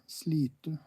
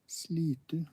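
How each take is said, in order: The two takes are said the same way.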